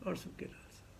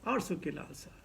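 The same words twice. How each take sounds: First: Breathed away to a whisper; whispered, fading repeat; whispered echo. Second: Softer, lower echo of the phrase; fading echo of the phrase; fading repeat. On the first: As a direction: let the phrase vanish in a whisper. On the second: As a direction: let it die away. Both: Shown as a demonstration.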